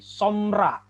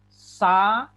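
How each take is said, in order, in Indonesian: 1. Vokal pertama adalah 'o', dengan dua suku kata. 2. Vokal pertama adalah 'a', dengan tiga suku kata. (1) "Kalau seandainya ini meteknya ini hilang, maka ini menjadi somra" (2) "karena ada metek di sini atau tanda aksen metek, maka ini menjadi samera"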